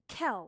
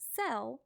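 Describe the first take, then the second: First: The word begins with a K sound. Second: The word begins with an S sound. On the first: The speaker calls it wrong. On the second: The speaker calls it right.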